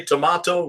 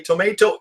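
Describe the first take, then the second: First: Tomato with an AH in the middle, tuh-MAH-toh; British pronunciation. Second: Tomato with an AY in the middle, tuh-MAY-toh; American pronunciation. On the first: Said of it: "You say tomato, we say tomato". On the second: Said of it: "we say tomato". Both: Shown as a demonstration.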